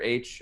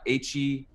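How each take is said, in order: First: It sounds just like the letter H. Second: It sounds like the letter H plus an ee. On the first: "It's pronounced like the letter H" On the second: "is also another way you can pronounce it"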